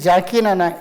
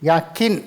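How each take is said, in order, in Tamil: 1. பெயர் 'J' ஒலியில் ஆரம்பிக்குது. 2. பெயர் 'Y' ஒலியில் ஆரம்பிக்குது.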